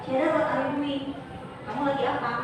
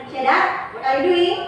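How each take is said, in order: First: Said in the usual way. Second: Mildly angry, firmer and raised; angry question. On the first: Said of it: "beneran nanya". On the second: Shown as a demonstration. Teacher shows how intonation changes the meaning, mildly angry. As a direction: demand it with a touch of anger.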